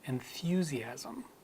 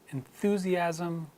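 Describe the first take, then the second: First: It has a y glide after the th. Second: It has no y glide after the th. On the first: "I will insert the yod sound the way British English would" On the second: "these words again in American English"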